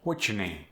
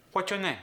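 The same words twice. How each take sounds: First: Said in the usual way. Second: High "what's your name", no R in "your"; Korean-accented question, pitched up. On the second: Shown as a demonstration. Coach demonstrating the lost R, Korean accent. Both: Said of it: "we lost the R".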